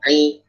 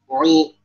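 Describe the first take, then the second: First: The vowel is said with flat, spread lips. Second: The vowel is said with rounded lips. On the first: The speaker calls it right. "langsung standby uh, pipih gitu, pipih kasroh" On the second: The speaker calls it wrong. "banyak yang ada kayak wawnya"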